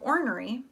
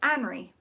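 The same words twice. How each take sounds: First: The first syllable has an r sound. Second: The first syllable has no r sound. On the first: The speaker calls it right. "instead of ornery" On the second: The speaker calls it wrong. "they said ornery"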